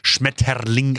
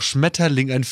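First: The word is said harshly and aggressively. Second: The word is said softly and normally. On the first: German sounds like a hard, radical language. The speaker calls it wrong. "Und dann wird es halt extra so Schmetterling ausgesprochen" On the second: German is not actually a harsh language. The speaker calls it right. "Aber dabei ist doch Schmetterling"

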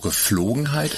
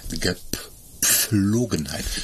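First: The word is said without a 'p' sound. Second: The word is said with a clear 'p' sound. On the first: The speaker calls it wrong. "Da ist noch ein P drin" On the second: The speaker calls it right. "Es ist Gepflogenheit"

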